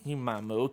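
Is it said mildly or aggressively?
mildly. It is said mildly, without force.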